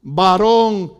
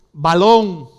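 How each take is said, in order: First: VARÓN loud, with a tapped R in the middle; R pronounced. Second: BALÓN loud, with an L in place of the R. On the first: Pastor demonstrates the standard form, VARÓN with R. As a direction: draw out VARÓN with a clear R. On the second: Pastor demonstrates Boricua swap, BALÓN with L. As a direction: draw out BALÓN with a clear L. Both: Shown as a demonstration. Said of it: "tragarme la R y pronunciar la L".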